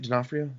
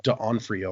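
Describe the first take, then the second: First: "D'Onofrio" run together as duh-NOFF-ree-oh, questioning; questioned pronunciation. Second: "D'Onofrio" split as duh-ON-free-oh; spelling pronunciation. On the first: Checking the actor's name, "D'Onofrio" as duh-NOFF-ree-oh, tentative. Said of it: "is that how you say it?". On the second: Showing how the name is spelled, "D'Onofrio" as duh-ON-free-oh. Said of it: "it's spelled like D'Onofrio or whatever". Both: Shown as a demonstration.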